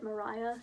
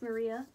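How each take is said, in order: First: The middle syllable sounds like 'rye'. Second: The middle syllable sounds like 'ree'. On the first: The speaker calls it wrong. "I usually pronounce it Mariah" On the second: The speaker calls it right. "I have recently learned it is pronounced Maria"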